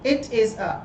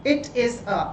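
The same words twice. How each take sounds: The two takes are said the same way.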